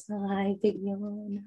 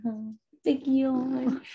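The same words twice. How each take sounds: First: Slow drawn-out coo; puppy talk. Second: Higher slow cooing; high puppy talk. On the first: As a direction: coo softly at the yawning pup. Cooing at yawning puppy. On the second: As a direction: coo up high at the pup. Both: Real, not acted.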